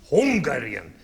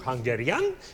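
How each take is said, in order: First: The stress falls on the first syllable. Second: The stress falls on a later syllable. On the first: The speaker calls it right. "accent on the first beat" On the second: The speaker calls it wrong. "It's not Hungarian"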